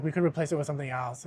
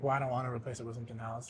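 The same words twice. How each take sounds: First: Said in the usual way. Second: Fast and much softer, a muttered brush-off; exasperated refusal. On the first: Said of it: "and they're like". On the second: Retold or imitated. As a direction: rush it under your breath, fed up. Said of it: "And I'm like".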